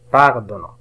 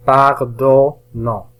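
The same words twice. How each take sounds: First: Said in the usual way. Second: "Pardonnant" slowly split as par, don, nant; very slow "Pardonnant" with gaps between syllables. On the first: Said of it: "يسهل علينا قراءتها". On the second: Shown as a demonstration. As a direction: sound out "Pardonnant" in three slow pieces. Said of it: "قمنا بتقطيع هذه الكلمة الصعبة".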